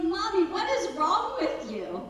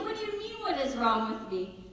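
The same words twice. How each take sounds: First: Put-on higher, louder voice of a puzzled child; upset son. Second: High-pitched start, settling into mock-calm mom; put-on calm. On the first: Son confronts his oddly calm mother, imitated puzzled child. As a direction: imitate a young son questioning mom. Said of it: "He's like". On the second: Mom answers her puzzled son, exaggeratedly calm. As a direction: play a mother being deliberately calm. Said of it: "so I'm being really calm".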